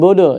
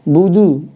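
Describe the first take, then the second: First: The vowels sound like o. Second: The vowels sound clearly like u. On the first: The speaker calls it wrong. "bukan bodoh ya" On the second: The speaker calls it right. "domahnya budu ya"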